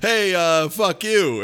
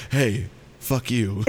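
First: Said in the usual way. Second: Low, slow, softer mock delivery; same words, different angle. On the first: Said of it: "it's just a guy being like". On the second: Guy looking down from a different angle, slow low mock delivery. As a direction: drop it down and draw it out, half laughing. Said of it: "looking down at you from a different angle going".

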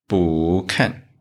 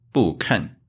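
First: 不 rising in second tone before falling 看. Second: 不 falling in fourth tone before 看, two falls; wrong fourth-tone 不. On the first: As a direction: let 不 climb, then drop on 看. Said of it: "it changed to second tone". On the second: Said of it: "it's wrong". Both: Shown as a demonstration.

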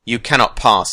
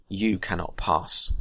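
First: Louder, firm defiance; defiant. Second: Slow, softer "cannot" with firm weight; slow, quiet finality. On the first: A narrator's reading. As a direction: stand your ground, loud. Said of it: "he said". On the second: Acted. Gandalf final refusal.

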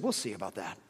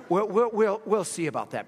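First: Low, quiet sceptical retort; doubtful wife, quietly dropped; sceptical reply. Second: WE'LL repeated high and loud, then settling; insistent, punched "we'll, we'll, we'll"; emphatic sceptical reply. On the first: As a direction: say it low and under the breath, unconvinced. Wife's sceptical reply, first take. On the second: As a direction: hit each "we'll" hard before finishing the retort. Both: Retold or imitated.

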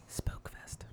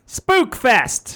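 First: Hushed, voiceless redo; barely-there whispered announcement; chastened whisper. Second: Shouted spooky event name, pitched up; big, higher-pitched holler; screamed. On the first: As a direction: whisper it meekly after being told off. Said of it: "I'll do it again". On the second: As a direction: yell it into the mic like a hype man. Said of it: "Don't scream into this new microphone". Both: Pretend.

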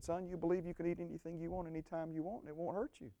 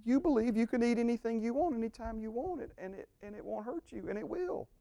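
First: Soft, quiet, fatherly telling; gentle voice of the Lord. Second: Higher, emphatic retelling of the lie; restating the lie. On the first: Retold or imitated. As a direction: say it softly as God speaking gently. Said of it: "He said". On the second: Shown as a demonstration. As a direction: preach it back high and pointed. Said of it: "Again, it's like".

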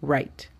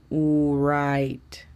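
First: "write" as one fast syllable, rait; right "write", said fast; quick native write. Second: "write" said slowly as u-rait with an extra u sound; mock wrong "write". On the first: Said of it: "Es para que lo digan rápido". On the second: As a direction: drag "write" into u plus rait. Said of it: "No es para que la digan write". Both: Shown as a demonstration.

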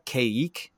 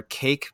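First: Caique said as ky-EEK, two syllables; one pronunciation of caique. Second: Cake said like the dessert, one syllable; the other pronunciation. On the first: Owner naming his bird's species, caique as ky-eek. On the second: Owner offering the other name for his bird, cake. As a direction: say cake, rhymes with bake. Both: Shown as a demonstration. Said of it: "depending upon how you wanna pronounce it".

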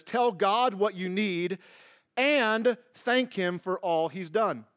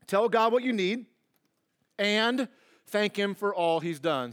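First: Reading the verse slowly. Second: Said in the usual way. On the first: Shown as a demonstration. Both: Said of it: "six B says this".

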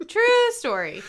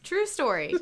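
First: "True" punched high and loud; big high swoop on "True"; exaggerated TRUE. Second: Said in the usual way. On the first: Shown as a demonstration. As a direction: hit "True" hard and high, falling on "story". Repeats phrase in exaggerated form.

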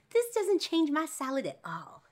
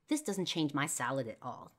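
First: High, loud, drawn-out silly declaration; gleeful mock-dad squeal; comic dad voice. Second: Said in the usual way. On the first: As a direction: proclaim it slowly in a hammed-up high voice. Dad's line repeated in silly voice.

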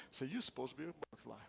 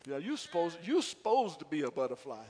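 First: Said in the usual way. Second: Light Southern drawl, a bit louder; Southern Morganton drawl. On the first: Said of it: "Look at your neighbor". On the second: Shown as a demonstration. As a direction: say it Southern, dropping the are. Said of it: "in your best Southern Morganton language".

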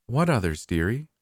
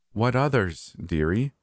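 First: High sing-song diva question; eerie repeated line. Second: Same high sing-song question; eerie repeated line. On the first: Diva dodging the question, high sing-song. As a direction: say it like a stuck record. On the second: Diva repeating herself, high sing-song. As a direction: repeat it like a stuck record. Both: A narrator's reading. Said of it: "in the exact same tone and cadence as before".

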